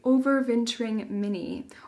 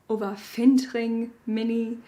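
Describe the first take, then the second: First: It is said in the speaker's ordinary accent. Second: It is said with a put-on German accent.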